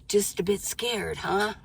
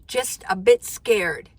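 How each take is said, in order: First: Quiet, knowing repeat of "Just a bit scared"; a hushed echo of the viewer's worry; soft echo. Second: Slow, deliberate read of the viewer's words; drawn-out, a little teasing; quoting a nervous viewer slowly; slow quoted line. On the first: Real, not acted. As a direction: say it softer, gently teasing. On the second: Shown as a demonstration.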